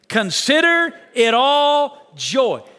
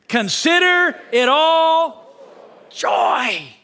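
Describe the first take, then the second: First: It is read plainly, without extra energy. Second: It is read with passion and energy.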